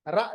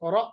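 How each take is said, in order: First: The ra is light, with unrounded lips. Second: The ra is heavy, with rounded lips. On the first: The speaker calls it wrong. "रा नहीं पढ़ेंगे" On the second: The speaker calls it right. "रा के बजाय रॉ मोटा पढ़ना, होंठों को गोल करना"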